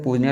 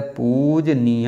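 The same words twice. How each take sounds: First: Said in the usual way. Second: पूजनीय stretched, with a long first "poo"; slow spelling demo. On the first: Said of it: "लिखा जाता है". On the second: Shown as a demonstration. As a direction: sound out पूजनीय slowly for spelling. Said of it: "ऐसे लिखा जाता है".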